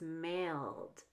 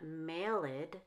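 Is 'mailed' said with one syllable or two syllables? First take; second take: one syllable; two syllables. First: The ending adds no syllable, one syllable. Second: The ending is an extra syllable, two syllables. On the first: The speaker calls it right. "it's just mailed, because mail ends in an L" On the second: The speaker calls it wrong. "It's not mailed"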